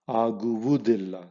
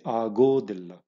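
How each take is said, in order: First: Every syllable is said in full. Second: The middle syllables are merged into one. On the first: This is the standard form. "It's difficult to say aguvudilla" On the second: This is the colloquial form used in fast speech. "So people just say agodilla"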